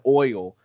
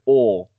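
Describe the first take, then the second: First: The word is said with a standard accent. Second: The word is said with a Southern accent.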